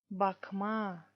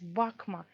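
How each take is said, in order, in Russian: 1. Конечная гласная произносится долго. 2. Конечная гласная краткая; ударение на корне. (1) "вот эти два а э, нужно читать долго" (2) "Тут просто одна а. ... тут ударение еще есть. Ударение падает на корень слова"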